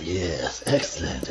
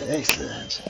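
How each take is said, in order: First: Low scheming villain voice; spy voice. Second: Whispered gleeful villain; spy whisper. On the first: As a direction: say it low and pleased, plotting. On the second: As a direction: breathe it out, scheming. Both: Acted. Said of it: "That's my spy voice".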